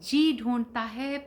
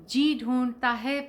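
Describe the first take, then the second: No difference in how they are said.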